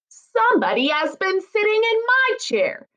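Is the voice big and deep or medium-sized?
medium. It is said in a middle-sized voice.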